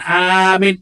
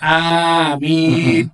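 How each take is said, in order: First: The vowel is said short and clipped. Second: The vowel is drawn out long. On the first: The speaker calls it wrong. "juga bukan amin" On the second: The speaker calls it right. "amin, panjang-panjang"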